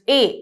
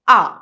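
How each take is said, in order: First: The letter is named with English pronunciation. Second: The letter is named with German pronunciation. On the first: "the alphabet A in English" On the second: "In German, it's pronounced A"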